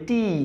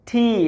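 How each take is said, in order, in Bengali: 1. t সাধারণ, এতে কোনো শ্বাসযুক্ত ছাড় নেই। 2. t-তে শ্বাসযুক্ত, জোরালো বায়ুর ছাড় আছে। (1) "এটা আসলে টি নয়" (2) "সঠিক উচ্চারণ হলো"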